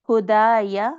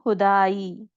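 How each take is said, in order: First: The word ends with a final 'a' vowel. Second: The word ends without the final vowel. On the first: The reading continues without stopping. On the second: The reader stops on this word.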